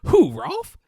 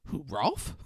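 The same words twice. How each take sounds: First: Much higher, louder incredulous question; hammed-up disbelief. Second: Said in the usual way. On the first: Mocking his answer about Rolf, high loud incredulous. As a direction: overplay the mock surprise. Exaggerated second take.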